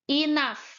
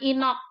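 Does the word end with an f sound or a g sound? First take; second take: f sound; g sound. First: The word ends with an f sound. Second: The word is read as spelled, ending in g. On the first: The speaker calls it right. "O sama U-nya dibaca A, G-nya dibaca F" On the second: The speaker calls it wrong. "jangan enough ya"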